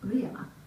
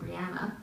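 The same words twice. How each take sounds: First: The name is said with a Scottish pronunciation. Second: The name is said with an American pronunciation. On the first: "Jamie pronounces it in the Scottish way" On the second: "most Americans would say Brianna"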